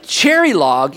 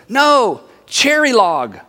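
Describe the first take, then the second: First: Lower, then swooping up into a question; puzzled disbelief. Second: Said in the usual way. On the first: Acted. Listener hears of the unknown town, puzzled. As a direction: echo the unknown place doubtfully. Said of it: "You went". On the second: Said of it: "And they said".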